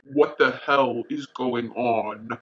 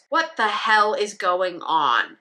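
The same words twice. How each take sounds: First: It is said in a deep, angry voice. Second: It is said in a plain voice.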